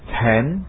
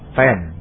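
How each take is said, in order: First: The t is released with a strong burst. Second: The t is released without a burst. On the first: The speaker calls it right. "Sekarang akan saya bacakan semuanya dengan benar" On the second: The speaker calls it wrong. "Sekarang saya ulangi dengan salah, tanpa letupan, tanpa plosif"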